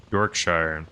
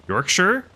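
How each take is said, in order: First: "Yorkshire" said low and unsure, ending -shire-er; a low tentative "Yorkshire". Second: "Yorkshire" with a high rising tune, yórk-sher; a high questioning "Yorkshire". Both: Shown as a demonstration. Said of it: "is that the right way to say it?".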